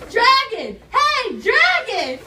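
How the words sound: It is shouted very loudly.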